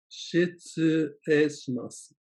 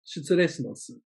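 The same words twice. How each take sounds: First: "Shitsurei shimasu" stretched out slowly; teacher slows "Shitsurei shimasu" down; drawn-out learner demo; slow model phrase. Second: Said in the usual way. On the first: Shown as a demonstration. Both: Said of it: "say these others slowly too".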